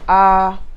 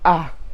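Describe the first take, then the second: First: The vowel is said on a middle pitch. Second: The vowel is said on a low pitch.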